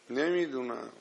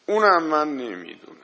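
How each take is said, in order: First: Soft repeat. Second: Louder and quick, firm; emphatic admission. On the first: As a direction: drop much softer, trailing off. Repeats admission softly. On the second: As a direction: declare it fast and loud. Preacher admits not knowing. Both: Real, not acted.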